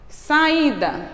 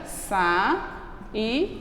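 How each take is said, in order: First: Said in the usual way. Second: Saída split as sa-i-da; syllables split. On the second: Shown as a demonstration. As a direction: break Saída into sa-i-da. (saída separada em sílabas)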